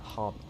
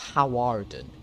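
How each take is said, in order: First: The name is said in a shortened form, Harden. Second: The name is said in its full written form. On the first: This is how people actually say it. "But you apparently pronounce it uh, Harden" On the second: This is the official written name. "Hawarden is the official. That's what it says on sheet of paper"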